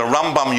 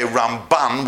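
First: RAMbam, first syllable stressed. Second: RamBAN, second syllable stressed, ending in N. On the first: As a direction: hit the RAM in Rambam. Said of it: "you put the emphasis on the first syllable". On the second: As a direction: lean on the BAN in Ramban. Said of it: "we put it on the second syllable". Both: Shown as a demonstration.

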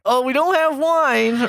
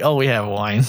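First: High, slow innocent voice; coy denial. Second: Lower, matter-of-fact admission; just own up to it bluntly. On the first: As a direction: play dumb in a sugary high voice. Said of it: "And we're like". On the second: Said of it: "Or you could be straight up just be like". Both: Retold or imitated.

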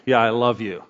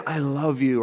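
First: Low, perfunctory reply; offhand. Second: Soft, sincere declaration; tender. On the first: Showing how tone changes words, offhand. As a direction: toss it off without meaning it. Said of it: "or I can be like". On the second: Showing how tone changes words, tender. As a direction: say it gently and mean it. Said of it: "thirty percent is the tone". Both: Shown as a demonstration.

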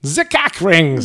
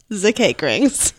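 First: "The cake rings" drawn out slowly as "zee kek rings"; German accent. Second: German accent. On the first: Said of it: "Is that better?". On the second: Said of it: "pronounce it in the German accent". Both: Shown as a demonstration.

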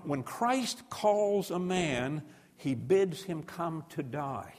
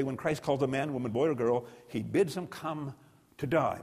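First: A slow solemn quote, every word laid down; preacher savouring a famous line, slowly; slow, weighty quote. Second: Said in the usual way. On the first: Shown as a demonstration. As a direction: let the quote land slowly and gravely. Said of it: "get this line". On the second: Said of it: "we can say".

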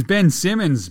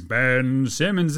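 First: Said in the usual way. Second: "Ben Simmons" stretched out slowly; drawn-out name. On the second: Real, not acted. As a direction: linger on each word of "Ben Simmons".

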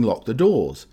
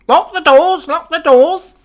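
First: Said in the usual way. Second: Very high, loud parrot squawk; shrieking parrot imitation; parrot shouting. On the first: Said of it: "people on the train start looking around saying". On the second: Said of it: "you'll start shouting".

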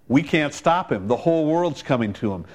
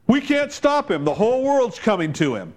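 First: Said in the usual way. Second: Higher, alarmed overstatement; exaggerated quote. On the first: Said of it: "But you know what?". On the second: Pharisees panicking about Jesus, exaggerated. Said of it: "they say in an exaggerated statement".

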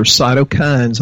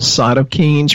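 First: CYTOKINES ending like "kinds"; pronunciation variant. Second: CYTOKINES ending like "keens"; pronunciation variant. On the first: Guest offers the other pronunciation, cytokines said "kinds". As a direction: say cytokines with a long i, "SY-toe-kinds". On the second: Guest explains a term to listeners, cytokines said "keens". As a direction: say cytokines with a long ee, "SY-toe-keens". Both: Shown as a demonstration. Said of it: "heard it pronounced both different ways".

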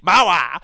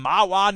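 First: Loud, exclaimed "Mahwah"; relishing the name. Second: Said in the usual way. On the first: Pretend. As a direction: belt out "Mahwah" like a silly catchphrase. Relishes the odd town name.

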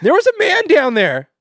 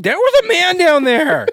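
First: High falsetto, pushed out loud; hammed-up woman insisting; mock female voice. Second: Very high, loud falsetto; shrill mock woman insisting; female voice. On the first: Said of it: "she sounds really angry". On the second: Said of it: "She's like".

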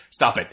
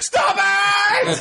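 First: Said in the usual way. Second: Escalating movie yell. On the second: Shown as a demonstration. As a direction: scream it like the movie's frantic finale. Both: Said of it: "this is something I quote all the time".

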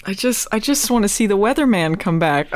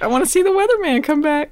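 First: Said in the usual way. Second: Higher, faster eager repeat; excited wish. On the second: Real, not acted. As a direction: say it again, now bubbling with excitement. Repeats wish with more energy.

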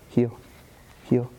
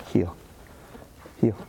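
The two takes are said the same way.

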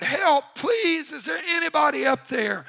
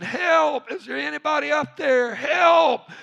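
First: High, pleading shout for help; acted desperate cry; more desperate. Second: High, loud cries for help; acted scream, pitched way up. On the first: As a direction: beg loudly for a rescuer, pitched way up. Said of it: "he became more desperate". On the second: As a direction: yell upward to anyone in earshot. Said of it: "he started screaming".

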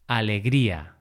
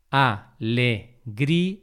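First: Said in the usual way. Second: "Alegría" slowly split as a, le, grí, a; syllable by syllable. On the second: Shown as a demonstration. Teacher marking the hiato for learners, syllable by syllable. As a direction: say "Alegría" in four slow, separate syllables. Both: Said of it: "esa separación de sílabas".

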